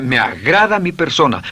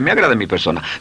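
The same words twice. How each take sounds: First: It is said with strong feeling. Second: It is said flatly, without feeling.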